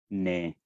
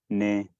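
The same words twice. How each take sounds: First: The word is said on an extra low level pitch. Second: The word is said on a low level pitch. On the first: "en el tono uno tenemos el tono extra bajo" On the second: "el tono dos que es tono bajo"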